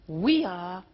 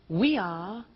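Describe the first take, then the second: No difference in how they are said.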